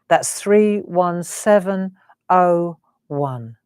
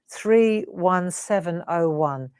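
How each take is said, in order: First: It is said slowly. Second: It is said at a normal, quicker pace.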